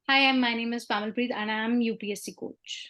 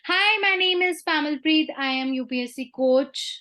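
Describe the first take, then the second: First: It is said in a steady pitch. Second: It is said in a high pitch.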